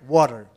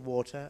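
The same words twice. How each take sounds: First: The middle T is a quick tap. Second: The middle T is a crisp, clear T. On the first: "Americans say water" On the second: "I say water"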